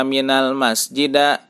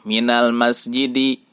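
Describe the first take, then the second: First: "minal masjida" with the last vowel turned to a; wrong a ending. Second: "Minal masjidi" ending on an open i; correct kasroh ending. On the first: Teacher showing the misreading, "minal masjida" ending in a. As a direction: end "minal masjida" on a instead of i. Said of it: "tidak dibaca". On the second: Teacher giving another example, "Minal masjidi" ending in i. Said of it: "Kita contohkan lagi". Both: Shown as a demonstration.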